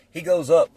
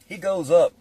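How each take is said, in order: Both takes have the same delivery.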